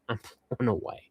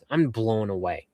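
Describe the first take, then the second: First: Whispered with a little laugh, softer. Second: Said in the usual way. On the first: Real, not acted. To fan George on the stream, a laughing whisper. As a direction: breathe it out, amazed and giggling.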